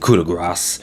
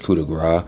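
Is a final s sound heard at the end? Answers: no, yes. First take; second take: yes; no. First: The word ends with a clear final s sound. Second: The word ends without a final s sound. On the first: The speaker calls it wrong. "they put the emphasis on the S or the C" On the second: The speaker calls it right. "I feel like it's coup de grace"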